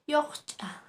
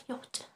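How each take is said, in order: First: Teacher models "Yocha", a little raised and drawn out; Aymara word yocha. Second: A soft murmured "Yocha", as if to yourself; quiet echo. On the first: Teacher introduces the word for daughter-in-law, said clearly. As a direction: say "Yocha" clearly and a bit high, stretching the ch. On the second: Teacher softly repeats the word for daughter-in-law. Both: Shown as a demonstration. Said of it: "a la nuera".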